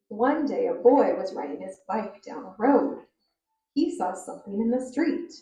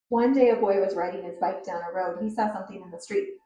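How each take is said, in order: First: It is read at a moderate, even pace. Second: It is read quickly, rushing along.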